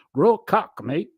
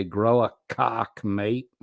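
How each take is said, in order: First: High, loud, shaky-attempt Aussie accent. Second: Said in the usual way. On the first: Streamer acting out a chat joke, attempted Aussie accent. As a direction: have a go at an exaggerated Australian accent. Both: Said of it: "don't have a good Aussie accent".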